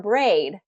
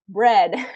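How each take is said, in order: First: The vowel is a long A sound. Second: The vowel is a short vowel sound. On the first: The speaker calls it wrong. "he was doing the long A sound" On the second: The speaker calls it right. "it's bread"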